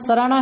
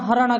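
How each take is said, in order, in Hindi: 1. यह शब्द s ध्वनि से शुरू होता है। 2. यह शब्द h ध्वनि से शुरू होता है। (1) "मेरे गांव का नाम सराना है" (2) "स को है बोलता है"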